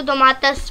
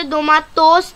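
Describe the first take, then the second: First: दोमातस with a short reduced last vowel; right pronunciation. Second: दोमातोस with a full o at the end; wrong pronunciation. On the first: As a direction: say दोमातस, the final o cut short. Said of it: "इसको दोमातस पढ़ेंगे". (सही उच्चारण: दोमातस, आखिरी स्वर छोटा) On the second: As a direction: say दोमातोस with a clear final o. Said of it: "नहीं पढ़ेंगे". (गलत उच्चारण: दोमातोस, आखिर में पूरा ओ) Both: Shown as a demonstration.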